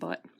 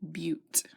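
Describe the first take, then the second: First: The vowel is a short 'uh' sound. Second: The vowel is a long 'yoo' sound. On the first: The speaker calls it wrong. "not but" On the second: The speaker calls it right. "four is pronounced bute"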